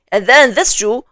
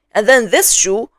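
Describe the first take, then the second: No difference in how they are said.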